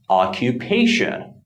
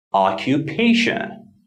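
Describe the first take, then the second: First: Occupation, light stress on oc, strong stress on pa. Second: Occupation, lighter stress on oc, main stress on pa. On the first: Teacher demonstrating word stress to learners. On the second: Teacher repeating the example for learners. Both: Shown as a demonstration. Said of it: "not as strong as the third syllable".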